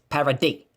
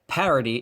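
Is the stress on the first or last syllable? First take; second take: last; first. First: The stress is on the last syllable. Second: The stress is on the first syllable.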